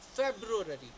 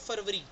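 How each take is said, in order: First: It sounds like 'feb-roo-ary' with a 'broo' sound. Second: It sounds like 'far-va-ree' without a 'broo' sound. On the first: The speaker calls it right. "इसका proper pronunciation है फेब्रुअरी" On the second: The speaker calls it wrong. "इसको हम बोलते हैं फरवरी"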